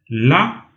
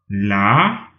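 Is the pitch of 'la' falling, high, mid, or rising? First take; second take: high; rising. First: The syllable is said on a high level pitch. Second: The syllable is said with a rising pitch. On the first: "d'en haut" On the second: "d'en montant"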